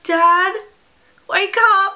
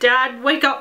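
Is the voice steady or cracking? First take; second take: cracking; steady. First: The voice cracks with emotion. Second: The voice is steady and normal.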